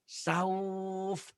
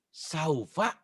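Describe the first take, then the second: First: The word ends cut off on the consonant. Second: The word ends on an open vowel. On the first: The reading stops at the word. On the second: The reading continues past the word.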